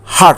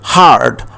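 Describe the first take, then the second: First: The vowel is cut short. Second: The vowel is held long. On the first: The speaker calls it wrong. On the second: The speaker calls it right.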